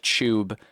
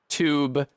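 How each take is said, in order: First: It begins with a ch sound. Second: It begins with a t followed by y. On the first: "the T gets turned into a C H" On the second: "with a tew sound"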